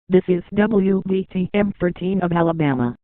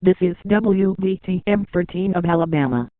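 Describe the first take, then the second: No difference in how they are said.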